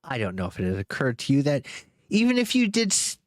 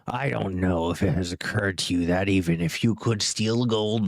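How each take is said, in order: First: It is said in a voice not Smaug's. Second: It is said in Smaug's voice.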